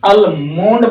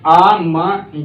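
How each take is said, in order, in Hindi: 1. इस शब्द में L की ध्वनि बोली जाती है। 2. इस शब्द में L की ध्वनि छोड़ दी जाती है। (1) "अलमोंड बोलते हैं" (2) "एल आउ साइलेंट हो जाएगा"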